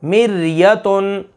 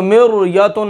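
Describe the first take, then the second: First: मिर्यतुन slowly, thin ra after mi; thin ra example. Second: मिर्यतुन quickly with a thick ra; wrong heavy ra. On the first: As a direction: draw out मिर्यतुन, ra light. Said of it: "जैसे कुरान पाक में है". (मिर्यतुन धीरे, बारीक रा से) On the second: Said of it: "अब इसको मिर्यतुन नहीं कर". (मिर्यतुन मोटी रा के साथ, गलत) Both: Shown as a demonstration.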